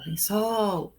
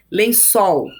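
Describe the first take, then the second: First: "Lençol" with a long, softer SOL; stressed syllable stretched. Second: Said in the usual way. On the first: Shown as a demonstration. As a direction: hold the final "sol" of "Lençol" to show the stress. ("Lençol" com o "sol" alongado) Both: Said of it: "A sílaba tônica é sol".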